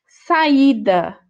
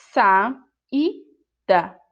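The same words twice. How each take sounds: First: Said in the usual way. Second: "Saída" split slowly into sa-í-da; syllables sounded out. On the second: Shown as a demonstration. Teacher sounding out "Saída" for pupils, syllabified. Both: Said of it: "temos aqui um encontro vocálico".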